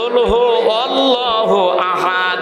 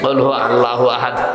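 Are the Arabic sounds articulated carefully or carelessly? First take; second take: carefully; carelessly. First: The Arabic letters are pronounced distinctly and carefully. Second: The Arabic letters are pronounced loosely and carelessly. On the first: This is the correct recitation. The speaker calls it right. "একটু খেয়াল করে পড়েন" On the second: This is how many people habitually recite it. The speaker calls it wrong. "উনি ওইটাই বলবে"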